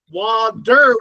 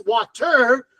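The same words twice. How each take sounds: First: Water slowed into 'wah-der', with a D; D sound. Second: Water with a clear hard T, 'wah-terr'; T sound. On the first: Explaining the spelling to learners, water said as 'wah-der'. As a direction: say water with D in place of T. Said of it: "with a D sound". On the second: Explaining the correct spelling sound, water as 'wah-terr'. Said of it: "with a T sound". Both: Shown as a demonstration.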